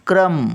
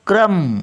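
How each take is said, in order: First: क्रम said high and firm, with र joined to क; corrected version. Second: क्रम said with a loud, high, wrong separated र; wrong version. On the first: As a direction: give the right क्रम. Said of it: "क्र, इथे येणार तो र". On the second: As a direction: show the mistaken क्रम. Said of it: "क्रम नाही". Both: Shown as a demonstration.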